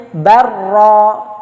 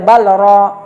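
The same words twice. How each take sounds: First: Barra with a merged doubled r; right form barra, long rolled r; correct barra. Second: Balra with a separate l before ra; the forbidden reading balra; wrong balra. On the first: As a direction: say barra, the lam swallowed into rr. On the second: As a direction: say balra with the lam kept apart. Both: Shown as a demonstration. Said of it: "tidak boleh balra".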